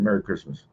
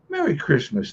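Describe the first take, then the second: First: The greeting is said flatly, without warmth. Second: The greeting is said warmly and cheerfully. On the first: The greeting is said only out of habit. The speaker calls it wrong. "rather than" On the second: The person really means the greeting. The speaker calls it right. "they would say it like that"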